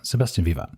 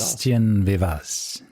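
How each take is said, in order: First: The surname ends without any S sound. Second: The surname ends with an audible S sound. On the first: The speaker calls it right. "I don't think you pronounce the S at the end in, in French" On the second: The speaker calls it wrong. "did I pronounce this correct? No"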